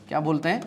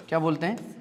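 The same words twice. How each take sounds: The two takes are said the same way.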